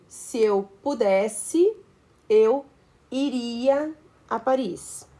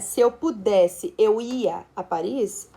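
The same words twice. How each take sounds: First: Slow, deliberate reading of the correct sentence; slow example sentence. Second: Slow, deliberate reading of the wrong sentence; slow wrong example. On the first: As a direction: read slowly, word by word, as the correct model. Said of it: "por exemplo". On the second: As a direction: spell out the mistaken sentence slowly. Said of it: "estrutura inadequada". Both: Shown as a demonstration.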